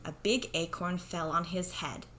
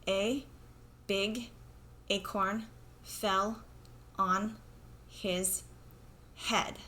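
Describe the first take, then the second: First: It is read smoothly with natural expression. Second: It is read flat and choppy, like a robot. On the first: The speaker calls it right. "Let's try it again with fluency" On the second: The speaker calls it wrong. "that was kind of like a robot, not very fluent"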